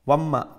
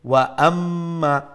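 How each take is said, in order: First: The two words merge with no glottal stop. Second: A clear glottal stop separates the two words. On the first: The speaker calls it wrong. "অনেক সময় লাগে ওয়াম্মা ওয়াম্মা, তো ওয়াম্মা নাই" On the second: The speaker calls it right. "ওয়াওর পরে হামজা আছে"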